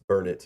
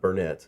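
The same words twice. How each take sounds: First: The stress is on the first syllable. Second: The stress is on the second syllable. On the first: The speaker calls it right. "It's Burnett, Durnett" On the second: The speaker calls it wrong. "not Burnett"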